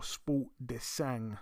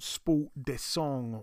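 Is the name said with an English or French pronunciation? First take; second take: English; French. First: The name is said with plain English pronunciation. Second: The name is said with French pronunciation.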